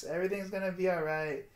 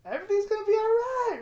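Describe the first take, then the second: First: Said in the usual way. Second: High, loud, tearful reassurance; crying. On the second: Real, not acted. Vlogger telling himself it will be fine, crying. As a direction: push the words out through sobs.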